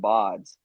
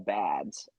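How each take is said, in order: First: The vowel sounds like the one in 'pod'. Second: The vowel sounds like the one in 'bad'. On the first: The speaker calls it right. "I did not pronounce it as the bods" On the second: The speaker calls it wrong. "I always pronounced it as the baseball bads"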